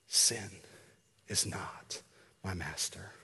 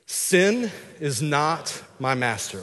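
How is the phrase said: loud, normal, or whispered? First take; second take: whispered; normal. First: It is said in a quiet whisper. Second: It is said in a normal speaking voice. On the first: "I want you just to whisper it" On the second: "we're just gonna say"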